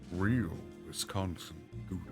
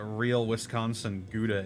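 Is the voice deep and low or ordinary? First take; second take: deep and low; ordinary. First: The voice is deep and much lower. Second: The voice is at its ordinary pitch. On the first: The speaker calls it right. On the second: The speaker calls it wrong.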